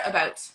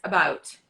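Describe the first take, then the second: First: "about" with a tighter, raised vowel, "a-BUH-oot"; regular Canadian about. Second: "about" with a dropped, open vowel, "a-BAH-oot"; American about. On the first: Coach showing the regular way, Canadian "about". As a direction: say "about" in everyday Canadian fashion. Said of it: "when I say it regular". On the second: Coach showing the American way, open "about". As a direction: drop the jaw wide on "about". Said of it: "and then Americans, it's about". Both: Shown as a demonstration.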